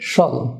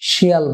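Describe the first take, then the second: First: The suffix is said as one syllable, shal. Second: The suffix is said as two syllables, shi-al. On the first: The speaker calls it right. "উচ্চারণ হবে শল" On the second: The speaker calls it wrong. "যেটা আমরা শিয়াল বলে থাকি"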